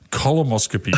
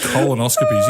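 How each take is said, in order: First: The middle of the word has an m sound. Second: The middle of the word has an n sound. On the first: The speaker calls it wrong. "He was calling them columoscopies" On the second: The speaker calls it right. "you know they're called colonoscopies"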